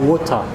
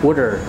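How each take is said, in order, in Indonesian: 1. Diucapkan dengan aksen Inggris. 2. Diucapkan dengan aksen Amerika. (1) "dari British itu water" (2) "kalau American itu water"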